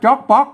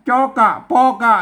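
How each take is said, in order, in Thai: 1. พูดเป็นสองพยางค์ปิด เสียงวรรณยุกต์สูง 2. พยัญชนะแต่ละตัวมีพยางค์สั้นของตัวเอง (1) "มันต้องอ่านว่าจ๊อกป๊อก" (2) "ไม่ใช่จอกะปอกะ"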